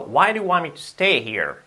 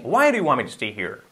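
First: The sentence is spoken at a normal, careful pace. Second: The sentence is spoken very quickly and heavily reduced.

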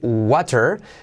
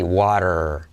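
First: The middle t is a hard t. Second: The middle t is a soft r-like flap. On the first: "Puedes decir water" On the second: "la T como R suave quedará así"

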